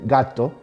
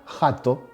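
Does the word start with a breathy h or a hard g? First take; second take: hard g; breathy h. First: It starts with a hard g sound. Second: It starts with a breathy h sound. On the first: "en vez de gato" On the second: "Un vigués de pro te diría jato"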